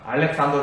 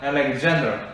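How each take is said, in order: First: The name is said with Korean pronunciation. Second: The name is said with English pronunciation. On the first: "알렉산더 대왕이라고 우리가 이제 이렇게 불렀었는데" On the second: "정말 영어 발음을 하면 알렉산더"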